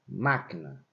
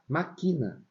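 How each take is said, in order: First: The stress is on the first syllable. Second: The stress is not on the first syllable. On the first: "qual é a sílaba tônica dessa palavra. É um má" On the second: "Se eu não colocar acento na palavra máquina, a gente vai ter que pronunciar maquina"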